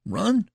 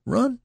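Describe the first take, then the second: First: High, outraged "Run?"; incredulous. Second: Even higher, louder "Run?"; incredulous. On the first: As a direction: toss the word back in disbelief. Incredulous at being doubted. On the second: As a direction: push the disbelief further. Repeats in disbelief. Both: Acted.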